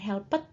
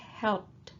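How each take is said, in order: First: The e is voiced as an extra syllable. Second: The p runs straight into a final d. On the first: The speaker calls it wrong. "Bukan helped ya" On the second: The speaker calls it right. "Dari P langsung ke D bunyinya ya"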